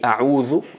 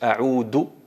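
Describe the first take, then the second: First: The middle consonant is a soft th sound. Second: The middle consonant is a plain d sound. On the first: It means 'I seek refuge'. The speaker calls it right. "a'udhu me, me refugio en Allah" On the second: It means 'I return'. The speaker calls it wrong. "pronuncian del ... ahí alteras totalmente el significado"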